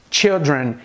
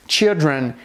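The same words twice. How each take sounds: Both takes have the same delivery.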